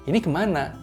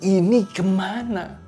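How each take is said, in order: First: It sounds like a plain, neutral question. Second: It sounds annoyed, slow and heavily emphasized. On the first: The speaker is simply asking. "Bukan sekedar cuma bertanya" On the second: The speaker is irritated about the matter. "dia menggunakan rasa kesal. Dia benar-benar menekankan dengan nada yang menekankan dan juga pelan-pelan"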